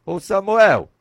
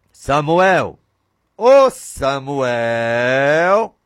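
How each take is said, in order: First: Said in the usual way. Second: Very slow, drawn-out call from far away; God's distant call. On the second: Acted. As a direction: stretch the name like a voice from heaven. God calls Samuel from afar. (chamado lento e distante, como voz de Deus)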